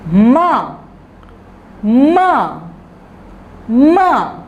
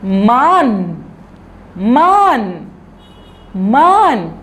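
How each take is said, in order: First: "माँ" with a nasal vowel and no n; open-mouthed "माँ", no tongue contact; nasal māñ. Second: "मान" ending on a clear n; tongue up on the palate for "मान"; mān with full n. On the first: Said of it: "तो फिर ये क्या बन जाएगा?". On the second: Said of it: "तो क्या बन जाएगा ये?". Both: Shown as a demonstration.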